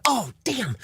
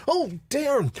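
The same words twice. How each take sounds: First: "damn" said with a clear final m; lifeguard's slip. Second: "damn" said as "darn", with an r and an n at the end; corrected to darn. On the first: Lifeguard mutters a mild curse at the pool, "damn" with an m. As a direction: says "damn" as the curse, with a crisp m at the end. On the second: Comic fixes the lifeguard's curse, saying "darn". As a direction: swap the curse for "darn", ending on r and n. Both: Acted. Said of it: "I meant darn".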